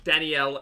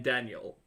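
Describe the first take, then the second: First: Danielle as dan-ee-ELL; three beats in Danielle; three-syllable name. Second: Daniel as DAN-yul; weak last syllable on Daniel; Daniel pronunciation. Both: Shown as a demonstration. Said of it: "you don't say Danielle instead of".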